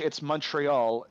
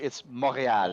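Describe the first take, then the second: First: The name is said with English pronunciation. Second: The name is said with French pronunciation. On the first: "in English, it's Montreal" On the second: "In French, it's Montréal"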